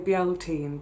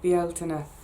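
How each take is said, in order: First: The name ends without a final vowel sound. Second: The name ends with an extra final 'a' sound. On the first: The speaker calls it wrong. "I always want to say Bieltine" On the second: The speaker calls it right. "it should be more Bieltina"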